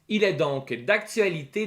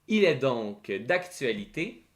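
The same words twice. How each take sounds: First: The phrase is spoken at a fast pace. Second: The phrase is spoken at a slow pace. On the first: "Je vais la lire une première fois rapidement" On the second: "plus lentement cette fois-ci"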